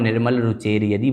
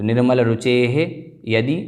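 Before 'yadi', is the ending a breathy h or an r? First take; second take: r; breathy h. First: The word ends in an r sound before yadi. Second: The word ends in a breathy h before yadi.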